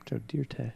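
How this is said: The name is said in a French-sounding way.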